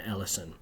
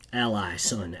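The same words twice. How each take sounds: First: Said in the usual way. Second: Ally, son, said as two separate parts, Ally then son; "Ally", a beat, then "son"; split into parts. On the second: Shown as a demonstration. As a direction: break the name into Ally and son with a small gap. Spelling out how the name breaks.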